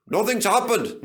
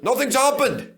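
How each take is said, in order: First: Gleeful, loud, high; chortling. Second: Higher, louder gleeful crow; louder chortle. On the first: Duncan gloating near the station, chortling. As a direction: crow with glee. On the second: Duncan gloating, louder chortle. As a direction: crow it even harder. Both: A narrator's reading. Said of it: "he chortled".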